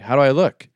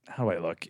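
First: It is said in a childlike voice. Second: It is said in an insecure voice.

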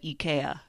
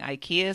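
First: It is said with the Scandinavian pronunciation. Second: It is said with the usual American pronunciation. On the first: "the actual pronunciation in Scandinavia" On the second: "just say it normal"

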